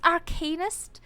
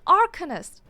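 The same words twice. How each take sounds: First: The middle syllable sounds like 'arcane'. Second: The middle syllable does not sound like 'arcane'. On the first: The speaker calls it right. "It's Arcanist? Gee, if that makes sense, it's arcane" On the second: The speaker calls it wrong. "I've been saying Arcanist"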